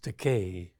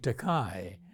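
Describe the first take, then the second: First: The final syllable rhymes with 'day'. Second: The final syllable does not rhyme with 'day'. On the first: It is the speaker's actual surname. The speaker calls it right. "It's pronounced Takei" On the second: It is a word meaning expensive. The speaker calls it wrong. "Many people mispronounce my surname. They call me Takei"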